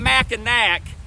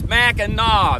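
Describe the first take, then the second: First: The final syllable ends with a hard k sound. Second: The final syllable ends with an open aw sound. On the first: The speaker calls it wrong. "It's not Mackinac" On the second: The speaker calls it right. "The C is pronounced like a W"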